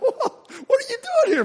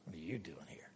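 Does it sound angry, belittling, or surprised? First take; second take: surprised; belittling. First: It sounds surprised. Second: It sounds belittling.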